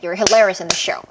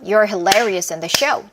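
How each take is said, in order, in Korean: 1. 가장 빠르게 말해요. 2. 조금 더 빠르게 말해요. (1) "더 빠르게" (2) "조금 빠르면"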